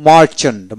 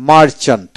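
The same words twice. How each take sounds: The two takes are said the same way.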